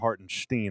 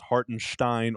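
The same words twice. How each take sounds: First: The last syllable rhymes with 'mean'. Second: The last syllable rhymes with 'mine'.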